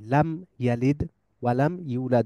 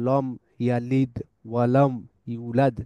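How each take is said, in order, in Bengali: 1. প্রথম L ধ্বনিটি হালকা ও চিকন। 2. প্রথম L ধ্বনিটি ভারী ও মোটা। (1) "লাকে চিকন রাখতেছি।" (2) "এখানে আমি বলতেছি না যে"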